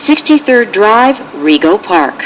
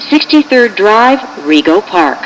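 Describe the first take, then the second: No difference in how they are said.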